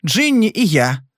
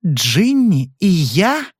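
First: Said in the usual way. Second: Slow rising echo of Джинни, unable to believe; wife can't believe her ears; stunned disbelief. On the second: A narrator's reading. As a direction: repeat it as if the words make no sense. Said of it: "повторила женщина, не веря своим ушам".

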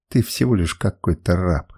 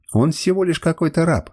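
First: Low-pitched, restrained outburst; understated cry. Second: High-pitched, indignant protest; tearful cry. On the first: Woman rejects the slave boy, understated low cry. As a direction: put him down in a lowered, controlled voice. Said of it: "закричала она". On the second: Woman protests being given to a slave, tearful cry. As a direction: protest in a raised pitch, understated tears. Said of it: "глотая слёзы, кричала она". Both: A narrator's reading.

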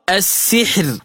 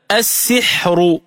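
First: السحر ending in a silent ra said thin and light; light ra at a stop. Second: السحر said slowly as assiḥru, the ra heavy with a vowel after it; heavy ra when joined. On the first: Teacher showing السحر at a stop, light ra. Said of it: "فتقرأ". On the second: Teacher showing السحر joined to the next word, heavy ra. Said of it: "فتلفظ هكذا". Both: Shown as a demonstration.

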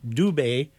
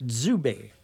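First: Dubé with a clean hard D, "doo-BAY"; French Dubé. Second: Zubé with a dz buzz on the D, "dzoo-BAY"; Quebec Zubé. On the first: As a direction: say Dubé the way they do in France. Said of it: "In France, they would pronounce that". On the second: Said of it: "In Quebec, they pronounce it". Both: Shown as a demonstration.

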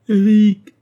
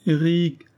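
First: Much higher and louder, a desperate wail of the name; plaintive cry. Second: A higher, lonely first call into the dark; plaintive call. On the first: No answer comes, Marguerite cries Eric's name, desperate and loud. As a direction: cry his name out with all her strength. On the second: Alone in the night, Marguerite calls for Eric, plaintive. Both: Acted. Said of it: "cria-t-elle d'une voix plaintive".

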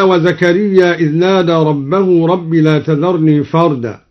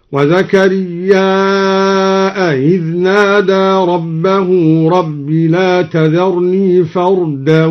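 First: Said in the usual way. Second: Slow chant, وزكريا held long and closed with a glottal stop; hamza on زكريا. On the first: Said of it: "همز زكريا". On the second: Shown as a demonstration. Teacher demonstrates the connected madd, وزكريا drawn out into a hamza. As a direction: stretch the last vowel of وزكريا into a hamza. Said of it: "فيصير عنده مدا متصلا هكذا".

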